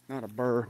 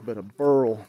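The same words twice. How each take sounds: First: Said in the usual way. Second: Burl said louder and firmly; stress on burl. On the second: Shown as a demonstration. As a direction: punch the word burl. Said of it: "B U R L".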